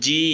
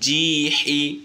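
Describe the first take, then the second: First: The word is cut off with no final vowel. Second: The word ends with an added short vowel. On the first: The reciter stops at the end of the phrase. "আর যদি আমরা থেমে যাই" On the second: The reciter keeps reading without stopping. "যদি আমরা না থামি ... নর্মাল উচ্চারণ"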